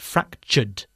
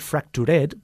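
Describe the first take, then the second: First: The ending adds no extra syllable. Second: The ending is said as an extra syllable. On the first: The speaker calls it right. "but fractured" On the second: The speaker calls it wrong. "we do not add an extra syllable. So we do not say fractured"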